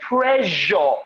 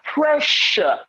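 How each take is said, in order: First: The middle consonant is voiced, a buzzing sound. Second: The middle consonant is a voiceless 'sh' sound. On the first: The speaker calls it wrong. "One speaker said pressure" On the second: The speaker calls it right. "That position is occupied by a voiceless fricative consonant phoneme"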